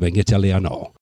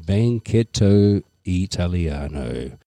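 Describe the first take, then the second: First: The words are said fast and run together. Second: The words are said slowly and kept apart. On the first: "I'll say it slow and then I'll say it fast" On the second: "in slow version"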